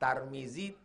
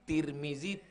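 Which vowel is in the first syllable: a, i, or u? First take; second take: a; i. First: The first syllable has the vowel a. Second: The first syllable has the vowel i.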